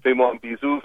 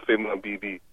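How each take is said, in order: First: Fais-moi un bisou with a rising end; Fais-moi un bisou, stress on Fais-moi; French phrase. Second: Fais-moi un bibi dropped much softer; Fais-moi un bibi said quietly as an afterthought; French phrase, softer. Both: Shown as a demonstration. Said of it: "That's how they say it".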